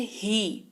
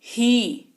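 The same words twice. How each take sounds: First: ही with a light push; light stress on ही. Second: ही given a small push; slightly stressed ही on its own; light stress on ही. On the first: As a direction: lean a little on ही. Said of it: "उस पे हल्का सा जोर पड़ेगा". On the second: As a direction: press gently on ही. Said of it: "जोर पड़ रहा है". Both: Shown as a demonstration.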